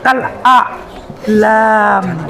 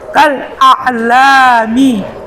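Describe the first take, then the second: First: The final syllable mi is dropped. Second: The final syllable mi is pronounced. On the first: The speaker calls it right. "Huruf yang terakhir itu nggak pernah dibaca" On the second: The speaker calls it wrong. "Jangan baca mi-nya"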